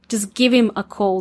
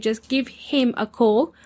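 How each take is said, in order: First: The h in him is dropped. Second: The h in him is clearly pronounced. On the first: This is the usual casual way to say it. "They'll actually make the H silent" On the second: The word him is being emphasized. "To accentuate that him"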